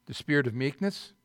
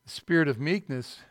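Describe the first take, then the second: First: Spirit of meekness? asked with a rising tune; questioning rise. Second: Spirit of meekness stated with a falling tune; answering fall. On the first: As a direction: ask it, lifting at the end. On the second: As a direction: answer it, settling down. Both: Shown as a demonstration.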